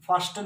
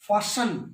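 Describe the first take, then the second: First: The t sound is pronounced. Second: The t sound is silent. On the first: The speaker calls it wrong. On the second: The speaker calls it right.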